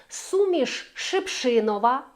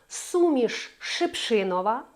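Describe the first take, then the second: The two takes are said the same way.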